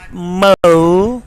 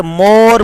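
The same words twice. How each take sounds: First: "mo" as a drawn "moh-oo"; correct vowel. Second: "more" with a pure "aw" vowel; wrong vowel. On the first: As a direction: glide "mo" into "oo", no R. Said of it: "but mo". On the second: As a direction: say "more" without any glide in the O. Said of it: "is not more". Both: Shown as a demonstration.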